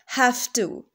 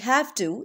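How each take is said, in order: First: The end of 'have' is a voiceless F sound. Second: The end of 'have' is a voiced V sound. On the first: "in rapid speech, we will say have to. The voiced V would become voiceless F" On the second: "instead of saying have to"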